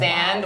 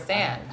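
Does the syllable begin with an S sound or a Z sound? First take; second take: Z sound; S sound. First: The syllable begins with a buzzing Z sound. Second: The syllable begins with a hissing S sound. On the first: This is how the voice assistant says the name. The speaker calls it wrong. "Siri says Streisand with a Z" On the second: This is how the name's owner wants it said. The speaker calls it right. "like sand"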